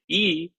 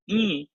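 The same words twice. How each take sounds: First: The vowel is said without nasal sound. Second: The vowel is said with nasal sound. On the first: "it's normal e" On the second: "then it becomes Anunasika e"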